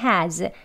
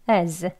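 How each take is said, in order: First: It has a full, strong vowel. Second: It has a weak vowel, h dropped. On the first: "강하게 has" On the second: "weak 약하게"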